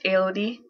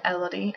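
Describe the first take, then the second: First: The name is said with French pronunciation. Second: The name is said with English pronunciation. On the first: "the French pronunciation is" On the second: "people pronounce it"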